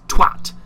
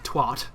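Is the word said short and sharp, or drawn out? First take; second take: short; drawn out. First: It is short, sharp and gutsy. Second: It is drawn out, American-style.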